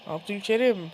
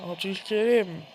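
No difference in how they are said.

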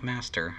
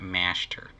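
First: Said in the usual way. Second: "Master" said as "Mashter"; exaggerated "mash". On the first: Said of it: "I don't want Master". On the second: Shown as a demonstration. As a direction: turn the s of "Master" into sh. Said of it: "I'm putting too much emphasis on the mash".

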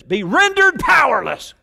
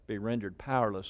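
First: Very loud, high, emphatic shout; all-caps emphasis. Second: Said in the usual way. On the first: Real, not acted. Preacher reading a footnote in all caps, shouted. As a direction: shout it as if printed in capitals. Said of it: "That was all caps in my notes". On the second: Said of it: "so I had to put the emphasis on it".

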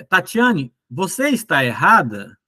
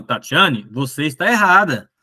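First: "errada" asked as a question; question intonation. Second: "errada" stated firmly as fact; affirmative intonation. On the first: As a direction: say "você está errada?" as a direct question to Tatiane. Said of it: "Se eu for perguntar, eu pergunto assim". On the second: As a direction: say "você está errada" as a statement to Tatiane. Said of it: "Mas se eu quero afirmar, não é uma pergunta". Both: Shown as a demonstration.

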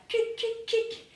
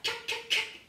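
First: Kick, kick, kick as a drum sound; sound effect kick. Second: Kick, kick, kick voiced like a beat; sound effect kick. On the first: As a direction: kick said high and sharp. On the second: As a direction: kick said high, whispered and sharp. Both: Shown as a demonstration. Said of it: "ça va faire".

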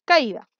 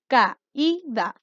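First: Said in the usual way. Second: CAÍDA split slowly into ca, í, da; teacher sounding out CAÍDA as ca-í-da; syllable by syllable. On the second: Shown as a demonstration. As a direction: break CAÍDA into three separate syllables. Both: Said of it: "Tenemos tres sílabas".

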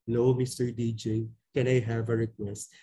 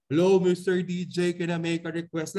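First: Low, deep pitch on the greeting; deep low-pitched phone request. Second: Louder volume. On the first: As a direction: drop your voice way down like a caller. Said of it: "pitch or tone na merong malalim magsalita". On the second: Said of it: "pwede mo ring sabihin na in the volume". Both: Shown as a demonstration.

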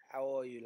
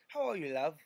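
First: Said in the usual way. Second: Lightly put-on London accent. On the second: Shown as a demonstration. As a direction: ask it the London way. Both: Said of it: "in the London accent".

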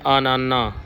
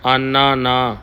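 First: ਆਨਾਨਾ said as one word with no gap; run together, wrong. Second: ਆਨਾ ਨਾ with a short pause between ਆਨਾ and ਨਾ; small gap between words. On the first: Teacher imitating the common mistake, ਆਨਾਨਾ run together as one word. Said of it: "ਕਈ ਗੁਰਮੁਖ ਜਣ ਇਹਨੂੰ ਇਕੱਠਾ ਪੜ੍ਹ ਦਿੰਦੇ ਨੇ". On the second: Teacher showing students the correct reading, ਆਨਾ ਨਾ split by a pause. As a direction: say ਆਨਾ, pause a beat, then ਨਾ. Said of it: "ਥੋੜ੍ਹਾ ਜਿਹਾ ਸਪੇਸ ਦੇਣਾ". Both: Shown as a demonstration.

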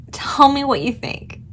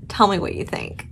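First: Said in the usual way. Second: Soft unvoiced whisper. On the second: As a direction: breathe it as a secret. Asks viewers twice, differently.

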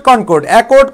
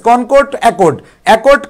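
First: Said in the usual way. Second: Each word drawn out very slowly for the class; slow drill. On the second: Shown as a demonstration. Teacher drilling online students on vocabulary, very slow. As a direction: spell out Concord, accord slowly so students can repeat. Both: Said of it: "আমরা কিছু word মুখস্থ করে ফেললাম".

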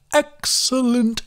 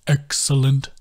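First: Slow and much higher, stretched out; slow rising croon of delight; delighted sing-song creature. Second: Settled sing-song echo. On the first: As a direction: savour it like a treat. Bog savours the word. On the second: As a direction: let it settle back down. Bog repeats it softer. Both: A narrator's reading.

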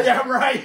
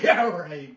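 First: Loud, high scoff. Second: Said in the usual way. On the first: Real, not acted. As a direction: throw it back loudly in disbelief. Doubting the wing won't burn.

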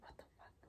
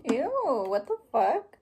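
First: Unvoiced, hushed retold what the fuck; whispered retold reaction. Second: Louder, rising "what the fuck?" in real disgust; disgusted surprise. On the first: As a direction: breathe "What the fuck?" with no voice, like a secret. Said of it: "and I was like". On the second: Real, not acted. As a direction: recoil and say "what the fuck?" with the pitch rising at the end. Reacting to something nasty.

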